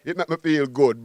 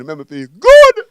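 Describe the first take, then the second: First: Said in the usual way. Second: Belted out loud, full of joy; loud happy proclamation; joyful shout. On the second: Real, not acted. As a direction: shout the good feeling out.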